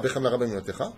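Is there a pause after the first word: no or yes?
no. The words run together with no pause. The speaker calls it wrong. "c'est pas behemla rabban imunatecha, il faut s'arrêter"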